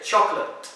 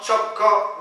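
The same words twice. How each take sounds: First: "chocolate" in two syllables, CHOK-lut; correct pronunciation. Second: "choco" with a full second O; mispronunciation demo. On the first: Teacher correcting with what you just say, correctly pronounced. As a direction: say "chocolate" dropping the middle O. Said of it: "no, you just say". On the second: Teacher showing the O not to pronounce, mispronounced. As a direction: say "choco" as two full syllables, CHO-KO. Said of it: "So it's not". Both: Shown as a demonstration.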